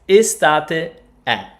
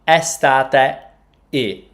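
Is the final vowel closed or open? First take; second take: open; closed. First: The final vowel is an open e. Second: The final vowel is a closed e. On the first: The speaker calls it right. "E is pronounced open" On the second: The speaker calls it wrong. "It's not estate e"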